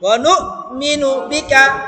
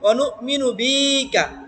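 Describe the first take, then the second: First: The vowel in 'bi' is kept short. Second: The vowel in 'bi' is drawn out long. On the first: The speaker calls it right. "টান হবে না ... তাড়াতাড়ি বলেন" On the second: The speaker calls it wrong. "এইভাবে টান দিয়ে ফেলি"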